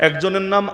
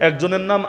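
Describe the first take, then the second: Both takes have the same delivery.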